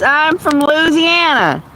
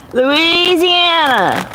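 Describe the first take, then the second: First: Said in the usual way. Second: Slow, stretched-out Louisiana drawl, pitched high; drawn-out Louisiana accent. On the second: Shown as a demonstration. Streamer asked about her accent repeats her home state, exaggerated Louisiana drawl. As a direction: lay the Louisiana accent on thick and draw the word out.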